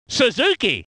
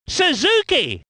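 First: Said in the usual way. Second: Surname lifted and exclaimed; excited name call. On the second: Acted. Commentator naming Suzuki, exclaimed call.

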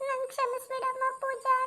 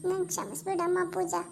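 First: ನನ್ ಕ್ಷಮಿಸ್ಬಿಡಮ್ಮ ಪೂಜಾ pleaded high through tears; crying plea. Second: Said in the usual way. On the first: Acted. Mother-in-law weeps ನನ್ ಕ್ಷಮಿಸ್ಬಿಡಮ್ಮ ಪೂಜಾ at her bedside, high crying plea.

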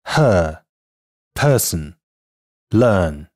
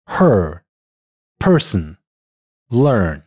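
First: British non-rhotic her, person, learn; British English word demo: her, person, learn; British pronunciation. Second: American r-colored vowel in her, person, learn; American English word demo: her, person, learn; American pronunciation. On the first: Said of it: "英音". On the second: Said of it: "美音". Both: Shown as a demonstration.

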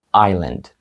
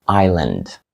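Both takes have the same delivery.

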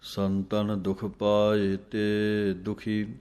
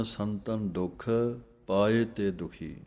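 First: ਸੰਤਨ ਦੁਖ ਪਾਏ ਤੇ, pause, then ਦੁਖੀ; ਸੰਤਨ ਦੁਖ ਪਾਏ ਤੇ as one phrase, then ਦੁਖੀ set apart; correct pause. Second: ਸੰਤਨ ਦੁਖ, pause, then ਪਾਏ ਤੇ ਦੁਖੀ; wrong pause. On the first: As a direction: break after ਤੇ, not after ਦੁਖ. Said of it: "ਇੱਥੇ ਵਿਸਰਾਮ ਹੈ ਦੁਖੀ". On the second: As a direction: break wrongly after ਦੁਖ. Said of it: "ਕਈ ਵਿਸਰਾਮ ਲਾ ਦਿੰਦੇ ਹਨ". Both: Shown as a demonstration.

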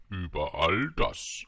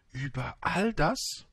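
First: Stately Über all das, stress on all; grand confirmation. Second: ÜBER ALL DAS slow, climbing high at the end; awed, drawn-out Über all das, ending up; astonished question. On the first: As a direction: draw out Über all das with royal certainty. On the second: Prince asks in astonishment. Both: A narrator's reading.

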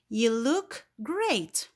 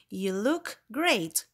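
First: Drawn-out compliment, stress on GREAT; slow exclaimed example. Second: Slow repeat, falling on GREAT; exclaimed again. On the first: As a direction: praise it slowly and brightly. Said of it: "examples of exclamatory sentences". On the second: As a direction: repeat the compliment with warmth. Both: Shown as a demonstration.

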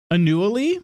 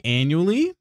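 First: "Annually" said uh-NEW-uh-lee, rising high; playful mispronunciation. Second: Said in the usual way. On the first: Shown as a demonstration. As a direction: stress the second syllable of "Annually", like "a newly". Repeats word with shifted stress.

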